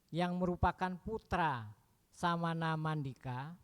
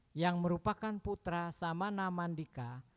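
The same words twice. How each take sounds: Both takes have the same delivery.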